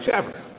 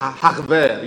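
First: The word begins with a hard 'ch' sound. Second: The word begins with a breathy 'h' sound. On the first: The speaker calls it wrong. "So the word is spelled C-H-A-B-E-R. I was like" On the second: The speaker calls it right. "It's Haver"

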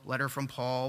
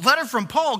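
First: It is said flatly, like routine mail. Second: It is said with eager, rising excitement. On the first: It is just another piece of mail. "It's like you go to the mail one day and you're like" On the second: A letter from someone they love has arrived. "It's not like that with them"

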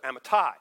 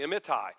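First: The stress is on the last syllable. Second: The stress is on the middle syllable. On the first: The speaker calls it right. "it puts the emphasis there" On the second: The speaker calls it wrong. "We would tend to accent the middle"

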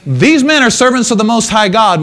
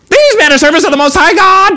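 First: It is read in a plain voice. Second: It is said in a mocking, taunting voice.

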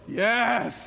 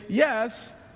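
First: The yes sounds grudging, with attitude. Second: The yes sounds plain and sincere.

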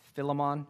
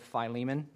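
First: The first vowel is short. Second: The first vowel is long. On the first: The speaker calls it wrong. "I will say Philemon instead of" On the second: The speaker calls it right. "long vowels are harder to say than short vowels"

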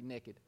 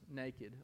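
First: It is said in a Kentucky accent. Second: It is said in a standard accent.

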